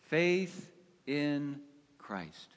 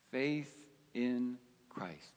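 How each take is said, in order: First: Said in the usual way. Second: Hushed echo. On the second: Real, not acted. Hushed repeat of the key phrase.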